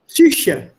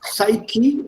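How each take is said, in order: First: Psyche said the German way, psoo-sheh; German pronunciation of Psyche. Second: Psyche said sigh-kee, slowly; English pronunciation of psyche. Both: Shown as a demonstration. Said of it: "psyche in English".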